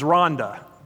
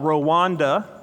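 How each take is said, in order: First: The name is said like the English name Rhonda. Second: The name is said the common American way. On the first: The speaker calls it right. "The proper pronunciation is Rhonda" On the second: The speaker calls it wrong. "a country Americans call Rwanda"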